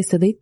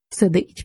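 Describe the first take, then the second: First: Said in the usual way. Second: СИДИТЬ echoed as a curt jeer; «Сидить» parroted derisively, falling at the end; mocking echo. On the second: A narrator's reading. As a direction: throw «Сидить» back in mild mockery. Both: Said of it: "передражнив його солдат".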